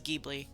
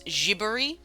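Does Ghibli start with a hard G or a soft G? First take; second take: hard G; soft G. First: The word starts with a hard G sound. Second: The word starts with a soft G sound. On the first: This is the Americanized way. "I always read it as" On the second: This is the original Japanese way. "technically a soft G, uh, because it's in Japanese"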